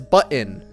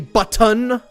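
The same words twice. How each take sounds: First: The word is said in a shortened, reduced way. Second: Every sound in the word is fully enunciated. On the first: The speaker calls it right. "it's shorthand" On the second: The speaker calls it wrong. "enunciates every single sound in a word"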